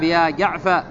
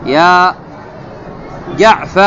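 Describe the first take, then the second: First: Said in the usual way. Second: Calling out the vocative. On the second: Shown as a demonstration. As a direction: call it out like summoning Jaafar. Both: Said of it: "من يعرب يا جعف؟".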